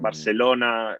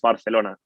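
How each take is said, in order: First: It has a southern Spanish accent. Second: It has a standard northern Spanish accent. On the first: This is how southern speakers say it. "people from the south of Spain... might say Bar- Barcelona, like similar to South South American" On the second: This is the standard way to say it. "but no, no, it's Barcelona"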